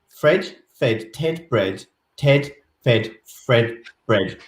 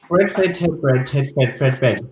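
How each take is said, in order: First: It is said slowly. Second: It is said very quickly.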